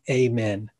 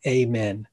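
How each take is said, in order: First: It is said the American way. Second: It is said the American way.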